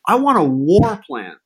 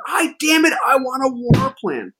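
First: Slow, higher mock Trump demand; imitating Trump. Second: Angry Trump imitation. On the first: Retelling Trump demanding a war plan, slow mock bark. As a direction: play Trump demanding it like a spoiled boss. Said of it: "He says". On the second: Trump demanding his war plan, high whiny mock rage. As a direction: throw a tantrum like a furious boss. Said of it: "Trump's getting angrier and angrier".

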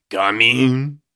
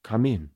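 First: Loud, cartoonish French accent; over-the-top comic French accent; exaggerated French accent. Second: Lightly voiced old man; a hint of an old man at the door; tentative old man character voice; first-try old man. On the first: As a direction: sing out in a hammed-up French accent, rising. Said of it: "give him a French accent". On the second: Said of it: "My first attempt at the voice".

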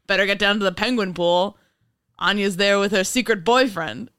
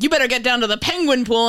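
First: Lightly voiced nineteen thirties newsman; a hint of a hard-boiled old radio reporter tipping off; old-timey reporter voice. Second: Louder, higher urgent tip-off; mock urgent caller. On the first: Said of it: "Your old-timey nineteen thirties reporter voice?". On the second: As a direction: bark the tip like an anonymous caller. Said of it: "I really wanna get a call one day to just be like".

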